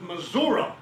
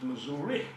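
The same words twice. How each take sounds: First: It is said in the local state pronunciation. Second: It is said in an outsider's pronunciation. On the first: The speaker was born in the state. "if you were born in my state, ... you pronounce it Missouri" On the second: The speaker was not born in the state. "if you were not born in my state, you pronounce it Missouri"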